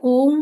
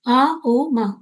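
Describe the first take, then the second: First: The sounds are merged into one syllable. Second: The three sounds are said separately with pauses. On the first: The speaker calls it wrong. "ओम नहीं होता है" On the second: The speaker calls it right. "इस तरीके से इसको उच्चारण करते हैं"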